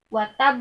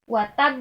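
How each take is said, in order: No difference in how they are said.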